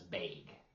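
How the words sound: It is said with a northern, near-Canada vowel. "A friend of mine says bag. ... She's from somewhere up north"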